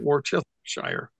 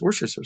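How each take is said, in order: First: Every written syllable of the word is pronounced. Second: Several syllables are dropped from the word. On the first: The speaker calls it wrong. "You don't pronounce it" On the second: The speaker calls it right. "the true pronunciation of Worcestershire sauce is"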